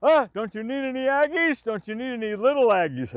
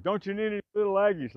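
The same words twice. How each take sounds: First: High, loud playful holler; excited shout asking for little Aggies; mock call out. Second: Quicker, louder playful call; raised-voice retelling of the tease; repeated call. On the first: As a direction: tease him from the rock, calling out. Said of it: "Go, he'll". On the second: Retold or imitated. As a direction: toss the line off again, teasing. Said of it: "like that".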